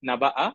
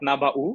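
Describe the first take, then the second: First: The word ends with an a vowel. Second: The word ends with a u vowel. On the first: "ফাতহা" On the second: "with a দম্মা"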